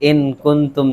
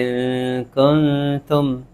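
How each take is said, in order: First: The n is pronounced as a clear full consonant. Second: The n is hidden as nasal sound in the nose. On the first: The speaker calls it wrong. "नहीं कहते" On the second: The speaker calls it right. "ऐसे पढ़ते हैं वहां पे"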